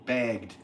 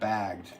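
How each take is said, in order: First: The word has a Canadian-accented vowel. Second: The word has a plain, non-Canadian vowel. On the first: This is how the Canadian friend says it. "when he says bagged" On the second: This is how others usually say it. "instead of bagged"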